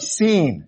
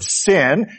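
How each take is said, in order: First: It is said differently from the common word 'sin'. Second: It is said like the common word 'sin'. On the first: It names the wilderness surrounding Sinai. The speaker calls it right. "And that's how you should pronounce that" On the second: It means wrongdoing. The speaker calls it wrong. "lest you confuse it with the wilderness of sin"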